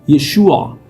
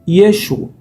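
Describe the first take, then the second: First: The name ends with a throaty 'a' sound. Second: The name ends on 'u', with no final 'a'. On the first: This is the correct pronunciation of the name. The speaker calls it right. "a pronúncia correta é Yeshua" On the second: This is how Galileans said it, unable to make the guttural sound. The speaker calls it wrong. "muitos galileus eles pronunciavam Yeshu"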